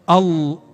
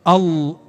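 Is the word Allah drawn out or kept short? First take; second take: short; short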